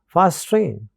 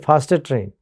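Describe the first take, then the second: First: The two t sounds merge into one. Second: Both t sounds are pronounced separately. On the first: The speaker calls it right. "when they are said in a flow, you may find that the two sounds assimilate" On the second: The speaker calls it wrong. "We don't say faster train"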